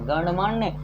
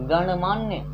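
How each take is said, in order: Both takes have the same delivery.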